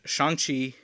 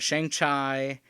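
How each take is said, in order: First: The second syllable rhymes with 'see'. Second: The second syllable rhymes with 'eye'. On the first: The speaker calls it right. "I'm pretty sure it's" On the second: The speaker calls it wrong. "is like when you're trying to mock someone"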